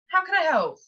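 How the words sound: It sounds unhurried, warm and caring. The caller is genuinely welcomed. The speaker calls it right. "Sound like you care"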